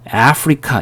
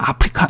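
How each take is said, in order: First: 아프리카 starting with "ae", as in Africa; American pronunciation. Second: 아프리카 quickly, starting with open "ah"; Korean pronunciation. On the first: Teacher showing how Americans say it, 아프리카 with initial ae. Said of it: "이렇게 발음을 하는 겁니다". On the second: Teacher showing how Koreans say it, quick 아프리카 with ah. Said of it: "우린 그냥 아프리카 이렇게 발음하죠". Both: Shown as a demonstration.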